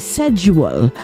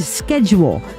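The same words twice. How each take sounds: First: It is said with a British pronunciation. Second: It is said with an American pronunciation. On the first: "they say schedule over in England" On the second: "We Yanks say schedule"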